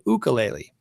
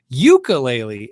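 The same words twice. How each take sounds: First: It is pronounced the Hawaiian way. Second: It is pronounced the common local way. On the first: This is how people from Hawaii say it. "a couple people from Hawaii said it's called ukulele" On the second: This is how people nearby usually say it. "how almost everyone around me where I live says it"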